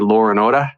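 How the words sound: It is said in an imitated Australian accent.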